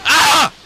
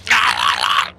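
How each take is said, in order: First: High, loud hammed-up dying scream; high death scream. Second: Low, loud hammed-up dying grunt; low mock death cry. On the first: Shown as a demonstration. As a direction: shriek like a soldier going down. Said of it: "Like that". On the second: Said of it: "they make, like, stupid noises".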